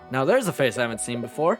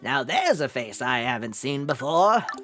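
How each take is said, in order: First: It is said in an ordinary, natural voice. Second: It is said in a put-on old man's voice.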